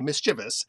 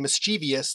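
First: It has three syllables, with no extra sound. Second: It has four syllables, with an extra 'ee' sound. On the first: The speaker calls it right. "we insist on mischievous" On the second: The speaker calls it wrong. "spelling it with the I that doesn't belong in there"

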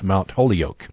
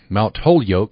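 First: The name ends sounding like the words holy oak. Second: The name ends sounding like the word yolk. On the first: The speaker calls it wrong. "not a sacred tree" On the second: The speaker calls it right. "the proper pronunciation of the college's name is an unbroken egg"

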